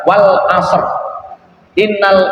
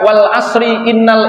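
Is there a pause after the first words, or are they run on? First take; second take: pause; run on. First: The voice stops after the first words. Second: The words run on with a linking vowel. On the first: The speaker calls it right. "yang paling tepat" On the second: The speaker calls it wrong. "Itu juga benar"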